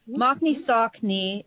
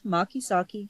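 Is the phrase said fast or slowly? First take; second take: slowly; fast. First: The phrase is said at a careful pace. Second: The phrase is said fast and reduced.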